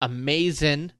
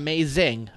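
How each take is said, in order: First: The word ends without the final g sound. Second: The word ends with the full g sound. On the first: The speaker calls it right. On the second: The speaker calls it wrong.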